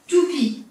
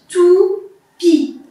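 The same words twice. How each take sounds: First: Said in the usual way. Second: "Toupie" slowly broken into two held beats; split into syllables. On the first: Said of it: "Le T". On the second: Shown as a demonstration. Teacher counting syllables for the child, "Toupie" in two separate beats. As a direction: say "Toupie" syllable by syllable, tou, then pie. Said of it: "Combien de syllabes à ton avis?".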